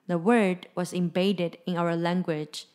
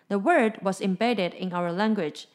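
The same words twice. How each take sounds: First: The sentence is read at slower speed. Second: The sentence is read at normal speed.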